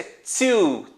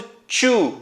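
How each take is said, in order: First: Two with a crisp ts-like t; teacher's model of "two"; correct pronunciation. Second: Two said the way many learners say it; learner's version of "two"; common mispronunciation. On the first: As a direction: say "two" carefully, the English way. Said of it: "quase isso, é two". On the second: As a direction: say "two" as a Brazilian learner would, with a ch-like start. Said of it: "eu ouço muita gente falando". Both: Shown as a demonstration.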